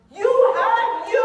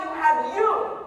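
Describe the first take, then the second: First: "You have you" slow and much louder, higher, YOU drawn out; slow, loud, high repeat of "You have you"; stress on YOU. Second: Said in the usual way. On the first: Shown as a demonstration. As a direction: hammer the word "you" slowly.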